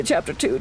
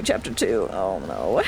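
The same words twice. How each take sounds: First: Said in the usual way. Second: Lage, trage stem voor onheil; deep voice. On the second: Shown as a demonstration. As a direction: zeg het diep en dreigend.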